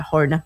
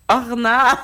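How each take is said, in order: First: Horna with a breathy English h, said low; "Horna" with the h sounded, English style; English-accented name. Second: Orna with no h and a rising end; "Orna" said the French way, silent h, rolled r; French pronunciation. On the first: Host reading band names, slipping into an English accent. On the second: Host correcting the name back to French. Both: Shown as a demonstration. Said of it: "je m'envoie dans mon accent anglais".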